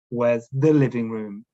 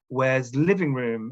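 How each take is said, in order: First: Said in the usual way. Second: Slowly, "Where's living room?" with no article; a student dropping the article; learner error. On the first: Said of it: "instead of". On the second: Shown as a demonstration. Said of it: "They might say".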